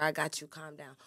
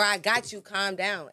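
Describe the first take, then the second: First: Gentle reassurance. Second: Louder, firmer calm down. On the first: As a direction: settle her down tenderly. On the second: Man telling his woman firmly: louder insistence. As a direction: say it with force, no softness. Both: Shown as a demonstration. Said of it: "It's all about your delivery".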